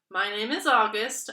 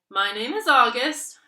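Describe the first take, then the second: First: It is mumbled quietly. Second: It is said louder and clearer.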